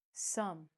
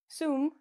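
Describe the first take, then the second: First: "some" with a short uh, softer; correct uh vowel. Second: "sum" said as "soom", higher; wrong oo vowel. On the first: Teacher showing the right word, "some" with uh. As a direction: say "some" to rhyme with drum. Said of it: "We say, uh". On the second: Teacher showing the mistake, "sum" mispronounced as soom. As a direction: say "sum" with a long oo. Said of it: "we don't say". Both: Shown as a demonstration.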